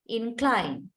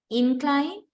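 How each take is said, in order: First: "incline" stressed on CLINE, falling; verb stress on second syllable. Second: "Incline" stressed on IN, high and rising; noun stress on first syllable. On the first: Teacher reads the verb of the pair, second-syllable stress on "incline". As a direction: lean on CLINE in "incline" and close. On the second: Teacher reads the noun of the pair, first-syllable stress on "Incline". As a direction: hit IN of "Incline", lift the ending. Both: Shown as a demonstration. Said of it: "find the syllable which is stressed".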